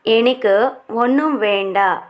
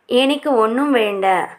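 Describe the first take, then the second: First: Slow, clear teacher repeat of ఎనకు ఒన్నుం వేండ; slow model repeat. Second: Said in the usual way. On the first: Shown as a demonstration. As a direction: say it slowly so learners can follow. (నెమ్మదిగా, స్పష్టంగా మళ్ళీ చెప్పడం)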